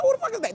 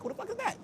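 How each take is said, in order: First: High startled shout of disbelief; surprised. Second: High, quiet startled question; mock shock at the video; surprised. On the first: Retold or imitated. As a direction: yelp the question up high. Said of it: "I said". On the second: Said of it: "I'm like".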